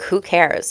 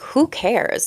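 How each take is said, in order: First: It sounds dismissive, brushing someone off. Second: It sounds like a sincere, curious question.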